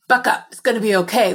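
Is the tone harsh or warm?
harsh. The voice sounds harsh and scolding. The listener is being told they should be doing better. The speaker calls it wrong.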